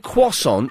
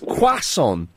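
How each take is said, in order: First: The first vowel sounds like an O. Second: The first vowel sounds like an A. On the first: The speaker calls it wrong. "I say croissant as with the O" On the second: The speaker calls it right. "it's croissant with an A"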